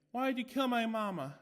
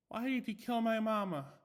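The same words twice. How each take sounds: First: High, loud eerie doll voice; the doll accuses the maid; creepy doll. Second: High, louder eerie doll voice; creepy doll. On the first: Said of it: "asked the doll". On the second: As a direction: accuse the killer in a toy's voice. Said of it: "and it said". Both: A narrator's reading.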